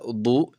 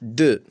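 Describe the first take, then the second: First: The vowel is a rounded 'o' sound. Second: The vowel is a short neutral schwa. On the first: The speaker calls it wrong. "ولا ضو" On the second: The speaker calls it right. "إنما تنطق de مثل كلمة devant"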